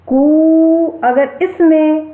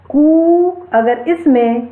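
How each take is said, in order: First: कु held very long and high, crow-like; prolonged pluta vowel. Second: कु stretched into a long कू, higher and slow; long vowel. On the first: Teacher shows students an extra-long pluta vowel. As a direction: stretch कु for three beats. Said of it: "और अधिक समय लग रहा है". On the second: Teacher shows students a long vowel. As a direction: draw out कु for two beats. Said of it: "थोड़ा अधिक समय लग रहा है". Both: Shown as a demonstration.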